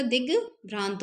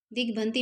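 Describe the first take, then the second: First: दिग्भ्रांत as dig, then long bhraant; correct form. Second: दिग्भ्रांति as dik-bhanti, ending in i; wrong form. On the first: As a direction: end दिग्भ्रांत on t, with no i. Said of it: "दिग्भ्रांत होता है". (दिग्भ्रांत, भ्रां लंबा, अंत में त) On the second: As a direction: say दिग्भ्रांति with short bhan and final ti. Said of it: "दिग्भ्रांति नहीं होता". (दिग्भ्रांति, अंत में ति के साथ) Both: Shown as a demonstration.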